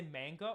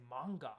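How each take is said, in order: First: Said in the usual way. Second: MANGA with a Japanese accent, open AH vowel. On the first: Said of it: "say it with an English accent". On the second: Shown as a demonstration. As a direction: say MANGA the Japanese way, "mahng-gah". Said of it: "with a Japanese accent".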